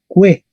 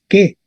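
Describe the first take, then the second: First: It begins with a kw sound. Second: It begins with a plain k sound. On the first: This is the Latin reading. The speaker calls it right. "se leería que" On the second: This is the Spanish reading. The speaker calls it wrong. "en español leemos que"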